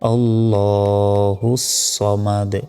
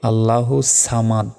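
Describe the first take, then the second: First: The S in samad is said heavy. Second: The S in samad is said light. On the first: The speaker calls it right. "উচ্চারণটা হবে" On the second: The speaker calls it wrong. "এটা সম্পূর্ণ ভুল"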